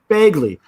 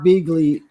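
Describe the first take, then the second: First: The first vowel sounds like 'bag'. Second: The first vowel sounds like 'bee'. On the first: The speaker calls it right. "It's Bagley" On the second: The speaker calls it wrong. "Am I pronouncing that right"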